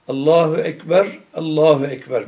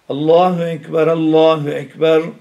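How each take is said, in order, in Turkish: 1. İki ifade bir durakla ayrılır. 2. İki ifade duraksız, birbirine bağlı okunur. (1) "Böyle aralarını keserek" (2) "Ama vasledersen"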